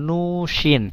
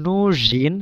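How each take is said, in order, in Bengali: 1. মাঝের ব্যঞ্জনটি অঘোষ 'sh' ধ্বনি। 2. মাঝের ব্যঞ্জনটি ঘোষ 'zh' ধ্বনি। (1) "এখানে কিন্তু উচ্চারণটা এমন হচ্ছে না নুশিন" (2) "এখানে নুজিনই হচ্ছে"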